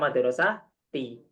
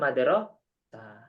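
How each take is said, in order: First: The word ends with a voiced '-ti' syllable. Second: The word ends cut off, without a final vowel. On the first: "Nggak usah madrasah ti" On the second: "Langsung ilal madrasah"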